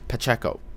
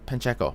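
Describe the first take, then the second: First: No n sound comes before the middle consonant. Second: An n sound comes before the middle consonant. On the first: The speaker calls it right. "There's no N" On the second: The speaker calls it wrong. "I'm not pronouncing that right"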